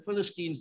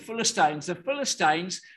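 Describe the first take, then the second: First: It is said the American way. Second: It is said the widespread, non-American way. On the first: "That's how the Americans say it" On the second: "the Philistines are what most people say"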